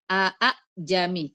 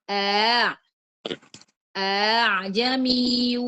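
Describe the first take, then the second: First: Both glottal stops are pronounced fully and separately. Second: The second glottal stop is softened into a glide. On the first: The speaker calls it wrong. "tidak dibaca a a jami" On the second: The speaker calls it right. "diringankan yang kedua"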